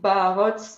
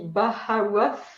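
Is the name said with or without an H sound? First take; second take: without H; with H. First: The name is said without an H sound. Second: The name is said with an H sound. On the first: This is how French speakers say it. "in French we just say Barots" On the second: This is how English speakers say it. "In English it will be Bahawath because you, you pronounce the H"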